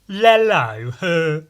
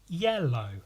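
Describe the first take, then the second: First: The word begins with an l sound. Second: The word begins with a y sound. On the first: The speaker calls it wrong. "I pronounced it lello" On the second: The speaker calls it right. "say yellow"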